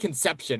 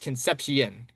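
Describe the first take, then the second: First: It sounds like the English word conception. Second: It ends with a Spanish-style 'sep-see-on' sound. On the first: Someone else would say it this way. The speaker calls it wrong. "they're gonna say Conception" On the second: This is the player's real name. The speaker calls it right. "no, it's Concepcion"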